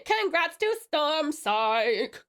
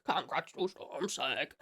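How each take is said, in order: First: Very slow, stretched-out cheer; slow, showy congratulations; drawn-out congratulations. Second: Low, soft and slow; slow, low-pitched soft echo of a cheer; hushed congratulations. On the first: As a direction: stretch every word of the congratulations. Celebrating winner, first take. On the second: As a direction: drop right down and draw it out quietly. Repeats congratulations, dropped right down. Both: Pretend.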